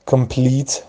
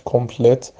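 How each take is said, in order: First: "کامپلیت" as kem-PLEET, long ee in the stressed second syllable; correct pronunciation. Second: "کمپلت" as kom-plet, short e at the end; wrong pronunciation. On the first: Teacher gives learners the right reading, English long-ee complete. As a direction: say "کامپلیت" the English way, reduced first vowel, long ee. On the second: Teacher repeats the misreading to avoid, short-vowel komplet. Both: Shown as a demonstration. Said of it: "کمپلت نخونیمش".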